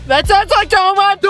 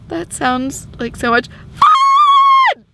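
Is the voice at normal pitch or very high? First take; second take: normal; very high. First: It is said at a normal pitch. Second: It is said at a very high pitch.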